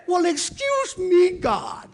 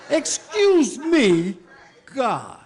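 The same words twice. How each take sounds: First: Loud, high mock-offended; outraged shout at God; indignant excuse me. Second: "Excuse me" stretched slow and loud, high; slow, loud outraged repeat; drawn-out excuse me. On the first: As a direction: shout it like you can't believe it. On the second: Acted. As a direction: drag out "Excuse me" in disbelief.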